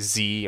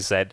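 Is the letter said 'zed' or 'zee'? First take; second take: zee; zed. First: It is said the American way, 'zee'. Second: It is said the British way, 'zed'.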